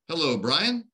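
The pitch rises on the name at the end. The caller is unsure who they are speaking to. The speaker calls it wrong.

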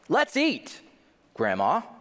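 There is a pause before "Grandma."

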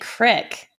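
It is said Missouri-style with a short 'i'.

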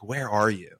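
It sounds warm, gentle and searching. He is lovingly looking for them. The speaker calls it right. "I'm looking, you don't have to hide"

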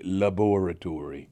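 It is said in a British accent.

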